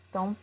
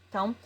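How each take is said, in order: Both takes have the same delivery.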